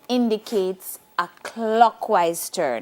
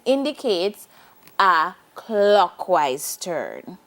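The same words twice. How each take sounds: First: It is spoken at a normal pace. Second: It is spoken at a slow pace.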